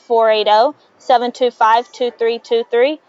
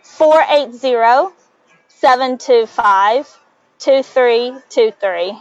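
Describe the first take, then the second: First: The number is said at normal speed. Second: The number is said slowly.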